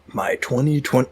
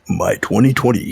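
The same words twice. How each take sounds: First: It is said in an ordinary speaking voice. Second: It is said in a dramatic movie-trailer voice.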